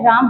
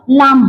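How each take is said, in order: First: Said in the usual way. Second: लाम with an L for the R; child's lisp. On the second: Shown as a demonstration. Teacher repeats the child's error, lisped लाम. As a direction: turn राम into लाम, R becoming L. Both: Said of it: "तो बच्चा क्या है".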